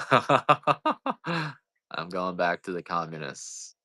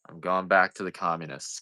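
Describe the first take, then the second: First: Slow, drawn out through a laugh. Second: Said in the usual way. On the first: Real, not acted. Joking to viewers about leaving, laughing slowly. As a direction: laugh your way through "communists".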